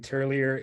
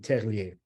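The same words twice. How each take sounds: First: The name is pronounced the American English way. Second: The name is pronounced the French way. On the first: "In English in the United States, you'll say" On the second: "If you're in France, it'll be"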